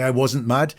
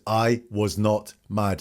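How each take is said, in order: First: Said in the usual way. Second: Slow "I was not mad", "was not" kept as two full words; formal, uncontracted. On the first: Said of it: "He doesn't say". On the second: Commentator imitating the witness's stiff denial, slow and formal. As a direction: spell out "was not" slowly and deliberately. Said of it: "He's very formal with it".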